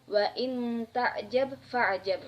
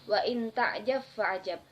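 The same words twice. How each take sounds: First: The final consonant is pronounced separately. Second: The final consonant merges into the next sound. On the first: "yang berbunyi"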